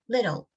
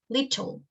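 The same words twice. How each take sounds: First: The t is soft, without tongue pressure. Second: The t is pressed firmly against the ridge. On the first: "Americans produce the t sound in a softer way, without applying pressure" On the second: "weight of the tongue against the alveolar ridge"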